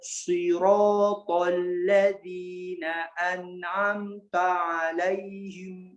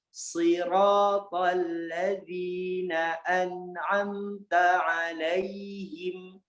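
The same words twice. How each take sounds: First: The sounds are said with rounded, pushed-out lips. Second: The sounds are said with normal, unrounded lips. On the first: The speaker calls it wrong. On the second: The speaker calls it right.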